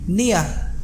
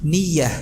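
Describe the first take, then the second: First: The ya is drawn out like a long vowel. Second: The ya is a short consonant from the tongue. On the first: The speaker calls it wrong. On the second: The speaker calls it right.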